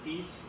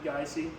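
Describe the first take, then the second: First: The name is said as one syllable. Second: The name is said as two syllables. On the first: The speaker calls it wrong. "often gets mispronounced as Geese" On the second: The speaker calls it right. "It's actually Geisey"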